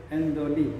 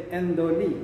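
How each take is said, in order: No difference in how they are said.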